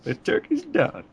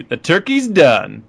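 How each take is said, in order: First: Much higher, slow hero quip; Human Torch voice. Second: Slow, pleased quip; quoting the Human Torch. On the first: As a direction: squeak it out like a cocky hero. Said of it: "he's like". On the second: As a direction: savor the line. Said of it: "I'll say a quote". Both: Retold or imitated.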